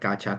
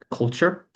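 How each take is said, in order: First: It sounds like gotcha, without clear l and t. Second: It has a clear l and t, like culture. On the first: The speaker calls it wrong. "A lot of people pronounce this word like gotcha" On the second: The speaker calls it right. "C U L T"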